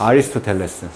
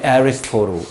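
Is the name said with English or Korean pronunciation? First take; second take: Korean; English. First: The name has Korean sounds and five syllables. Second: The name has English sounds and four syllables.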